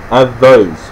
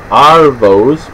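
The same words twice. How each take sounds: First: "avos" with a short A as in "have"; contrasting pronunciation. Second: "arvos" drawn out with a long AR; careful pronunciation. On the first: Teaching slang for avocados, "avos" said distinctly with short A. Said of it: "Not to get confused with arvos". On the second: Teaching Aussie slang for afternoons, "arvos" said carefully with long AR. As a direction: say "arvos" slowly, long first vowel. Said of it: "Not to get confused with". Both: Shown as a demonstration.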